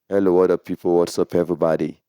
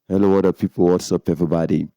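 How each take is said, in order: First: The voice sounds dry with little low-end boost. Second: The voice sounds fuller with boosted low bass. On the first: "let me turn down the bass" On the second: "And turn on the bass"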